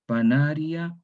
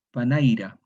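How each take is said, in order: First: Said in the usual way. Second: Panaira: swap to pa-NAI-ra, i before r; metathesis panaira. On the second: Shown as a demonstration. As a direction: say panaira with the vowels swapped. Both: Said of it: "Metátesis en el latín vulgar".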